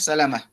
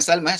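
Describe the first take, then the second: First: The name is said with three syllables. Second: The name is said with two syllables. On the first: The speaker calls it right. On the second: The speaker calls it wrong. "Bukan Salmah"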